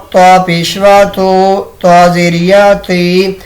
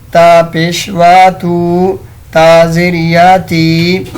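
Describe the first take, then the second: No difference in how they are said.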